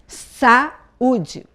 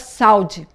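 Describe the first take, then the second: First: The 'a' and 'u' fall in separate syllables. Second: The 'a' and 'u' glide together in one syllable. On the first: "Você tem que falar cada vogal, cada som desse de vogal, numa sílaba" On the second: "Se eu falo junto, fica"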